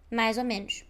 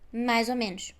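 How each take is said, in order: First: The words run together, with a z link. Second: The words run together, with a z link.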